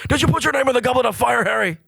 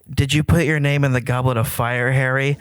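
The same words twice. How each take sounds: First: Dumbledore's line is said aggressively. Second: Dumbledore's line is said calmly.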